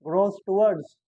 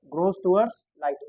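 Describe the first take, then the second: First: Said in the usual way. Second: Grows towards light, each word drawn out slowly; dictating to the class, very slow; slow dictation. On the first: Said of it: "first take before slow dictation". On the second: Shown as a demonstration. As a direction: say it slowly so they can write it down. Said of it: "teacher repeats slowly for notes".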